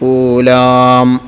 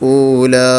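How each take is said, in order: First: The lips close, adding an m sound. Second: The word ends with an added h breath. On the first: "പെട്ടെന്ന് ചുണ്ട് പൂട്ടിയാൽ അവിടെ മീമും വരും" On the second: "ഹാ കൊടുത്തുകൊണ്ട് വഖഫ് ചെയ്യരുത്"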